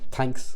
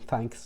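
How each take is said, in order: First: It starts with a hard t-like sound. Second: It starts with a soft th sound. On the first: "we have a hard T H sound" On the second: "whatever it is the Brits and the Americans say"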